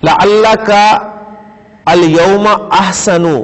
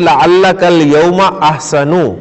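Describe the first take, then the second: First: The words are read as separate pieces. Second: The words are linked together in one flow.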